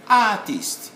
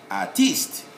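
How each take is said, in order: First: ARtist, high long first syllable; stress on first syllable. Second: Artist said as ar-TEEST, second syllable stressed. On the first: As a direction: punch AR in Artist, let -tist fall. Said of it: "We stress on the first syllable". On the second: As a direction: hit -TIST in Artist, short light first syllable. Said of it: "we stress on the second syllable". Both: Shown as a demonstration.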